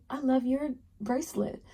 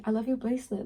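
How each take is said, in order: First: Wrong way. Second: Said in the usual way. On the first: Shown as a demonstration. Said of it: "Don't say it like that". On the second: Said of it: "but you can say".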